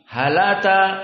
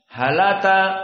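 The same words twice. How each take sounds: First: The glottal stop is dropped and the words link. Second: The same.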